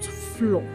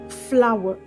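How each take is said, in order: First: The word is said with one syllable. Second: The word is said with two syllables. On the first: The speaker calls it wrong. "not floor" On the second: The speaker calls it right. "It has two syllables and not one syllable"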